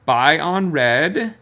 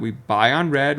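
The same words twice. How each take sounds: First: Buy on red slow and drawn out, lifting on on; slow mantra. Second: Said in the usual way. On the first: Shown as a demonstration. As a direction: spell out Buy on red like a rule to memorise. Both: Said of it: "learn this".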